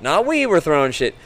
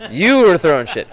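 First: "we" punched high and loud; stress on we. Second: "You" punched high and loud; stress on you. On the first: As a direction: hit "we" to deny the blame. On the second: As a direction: hit "You" to put the blame back. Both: Retold or imitated. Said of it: "And I'm like".

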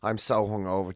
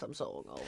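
First: Groggy, hungover voice. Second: Low, groaning, hungover voice. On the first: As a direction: speak like a rough hangover. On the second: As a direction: moan it out, worn out. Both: Real, not acted.

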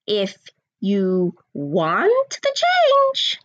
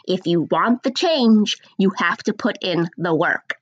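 First: Drawn out very slowly; slow emphasis. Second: Slow, deliberate repeat; nice and slow. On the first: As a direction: stretch every word out. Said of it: "So I'll say it again". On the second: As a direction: spell it out slowly for them. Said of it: "I'm gonna say it nice and slow". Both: Shown as a demonstration.

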